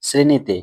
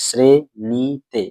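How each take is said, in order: First: Said in the usual way. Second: শ্রেণীতে very slowly in three separate beats; split into syllables. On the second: Shown as a demonstration. Teacher counting syllables for pupils, শ্রেণীতে split in three. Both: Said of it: "এই শ্রেণীতে এখানে কটি দল রয়েছে".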